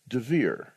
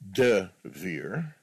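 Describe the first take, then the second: First: A very short vowel follows the D. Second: A full vowel follows the D. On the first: The speaker calls it right. "his name is Devir" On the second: The speaker calls it wrong. "Not Devir"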